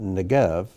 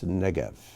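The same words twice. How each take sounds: First: The stress is on the second syllable. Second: The stress is on the first syllable. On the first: The speaker calls it wrong. "It's not negev" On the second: The speaker calls it right. "it's negev"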